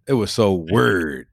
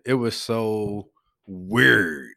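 First: Louisville accent, low and a little slow; moderately drawn-out Louisville accent. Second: Louisville accent, slow and low with a long drawn WEIRD; very slow Louisville drawl on weird. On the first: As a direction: say WEIRD in a Louisville accent with a shorter stretch. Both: Shown as a demonstration. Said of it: "say it in my Louisville accent".

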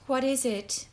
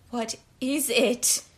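First: Mildly fearful question; voice trembling. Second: Slow, drawn-out insistent question; insistent repeat. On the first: Prisoner asking about the unknown packet, voice trembling. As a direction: ask with a touch of dread. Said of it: "voice trembling". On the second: Prisoner demanding to know about the packet, insistently. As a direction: press the question slowly, word by word. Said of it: "she repeated". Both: A narrator's reading.

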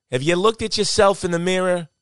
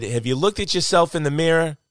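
First: High, put-on New Jersey accent with "mirra"; mock him in broad New Jersey. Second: Put-on light New Jersey accent, raised pitch. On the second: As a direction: quote the buddy in mild New Jersey. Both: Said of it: "That's my New Jersey accent".

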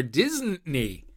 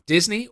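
First: Second "Disney" stretched as "Dizzn't-nee"; punning mispronunciation. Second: Said in the usual way. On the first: Shown as a demonstration. Host naming the fake-project option, "Disney" punned as "Disn't-ney". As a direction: say "Disney" like "Disn't-ney", leaning on the first syllable. Quiz question, made-up option.

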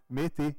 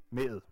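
First: "med det" with both words sounded; full two-word form. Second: "med", the following det merged into it; contracted spoken form. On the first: Lecturer giving a second example, "med det" pronounced in full. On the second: Lecturer demonstrating spoken contraction, "med" as one merged word. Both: Shown as a demonstration. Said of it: "det her med at trække sammen".

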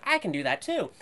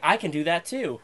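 First: Put-on understated hesitant kid; unsure claim. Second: Put-on loud, cocky kid claim, a touch higher; mild mock brag; bold boast. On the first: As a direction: say it timidly, half-convinced. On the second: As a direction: announce it proudly to the friend. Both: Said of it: "it was more like".

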